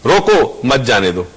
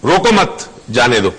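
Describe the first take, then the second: First: "रोको" set apart, then "मत जाने दो" run together, dropping lower; pause after रोको. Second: "रोको मत" run together, then a pause before "जाने दो"; pause after मत. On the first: Guest showing the opposite meaning by punctuation, pause after रोको. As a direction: break right after रोको, join मत to "जाने दो". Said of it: "पंक्चुएशन कहाँ की आपने". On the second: Guest showing how punctuation changes meaning, pause after मत. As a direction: break after मत, keep "जाने दो" as its own phrase. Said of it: "दो different meaning". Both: Shown as a demonstration.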